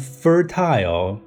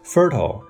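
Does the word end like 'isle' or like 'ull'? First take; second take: isle; ull. First: The ending sounds like 'isle'. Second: The ending sounds like 'ull'. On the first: "常规的正统的读法是fertile" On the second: "你的ile 呢可以读成o 的音就好了"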